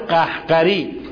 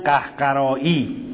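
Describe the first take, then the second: First: The word ends with a short 'ari' sound. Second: The word ends with a long 'aa-yi' sound. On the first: The speaker calls it right. "اگر بخوام تلفظ درست کرده باشیم" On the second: The speaker calls it wrong. "معمولا تو حوزه میگن قهقرایی"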